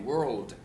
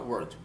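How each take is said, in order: First: The word is said with a clear L sound. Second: The word is said without an L sound. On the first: The speaker calls it right. "você tem que pronunciar o L" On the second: The speaker calls it wrong. "Não adianta falar word"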